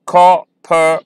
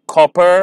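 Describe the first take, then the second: First: "copper" as cop-per, each part clear and slow; syllables split slowly. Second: Said in the usual way. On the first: Shown as a demonstration. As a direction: break "copper" into two beats. ("copper" धीरे, दो हिस्सों में) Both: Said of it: "इन्हें मैं slowly pronounce करूँगा".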